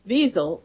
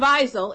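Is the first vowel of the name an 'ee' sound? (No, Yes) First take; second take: Yes; No. First: The first vowel is an ee sound. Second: The first vowel is not an ee sound. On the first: The speaker calls it right. "It has to be Wiesel because it's I-E, ... you put the emphasis on the E" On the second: The speaker calls it wrong. "It's not Wiesel"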